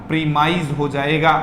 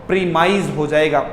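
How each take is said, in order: Both takes have the same delivery.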